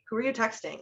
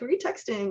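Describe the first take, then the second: First: It sounds suspicious and jealous. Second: It sounds light, curious and friendly.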